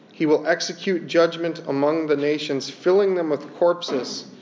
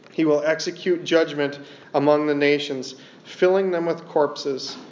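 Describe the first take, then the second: Both takes have the same delivery.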